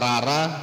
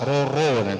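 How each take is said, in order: First: Both vowels are 'a'. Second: Both vowels are 'o'. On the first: The speaker calls it wrong. "Rara salah" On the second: The speaker calls it right. "itu betul"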